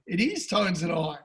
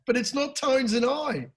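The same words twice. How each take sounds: First: "is" pressed firmly, words after it flat; stress on IS. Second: Said in the usual way. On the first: Shown as a demonstration. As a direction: correct himself by leaning on "is".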